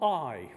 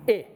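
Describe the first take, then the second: First: The vowel is long, like English eye. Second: The vowel is short, as in pit. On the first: The speaker calls it wrong. "not I" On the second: The speaker calls it right. "It's short"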